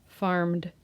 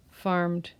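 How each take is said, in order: Both takes have the same delivery.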